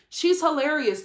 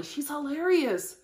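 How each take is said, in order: First: Said in the usual way. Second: Slow emphasis. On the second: Shown as a demonstration.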